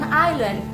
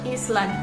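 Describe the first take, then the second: First: The word is pronounced like 'island'. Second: The word is pronounced like 'Iceland'. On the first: The speaker calls it right. "ketika bule itu mengucapkan island" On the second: The speaker calls it wrong. "banyak orang yang pemula bacanya itu Iceland"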